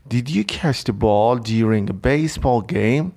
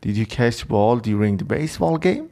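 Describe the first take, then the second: First: Very slow, careful, rising at the end; slow teacher read-aloud; slow example read. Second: Slow repeat with a rising question tune; teacher repeats the example; slower example reread. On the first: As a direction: read the example slowly for learners. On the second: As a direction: reread the sentence a little quicker. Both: Shown as a demonstration. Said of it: "حالا ببینید گفته did you".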